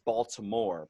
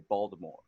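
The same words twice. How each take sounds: First: The word is said fully with every syllable. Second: The word is clipped with syllables dropped. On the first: "instead of saying it's Baltimore" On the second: "we'll just cut down"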